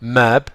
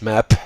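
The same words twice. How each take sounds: First: The final p is quiet with no puff. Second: The final p has a strong puff. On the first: The speaker calls it right. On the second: The speaker calls it wrong.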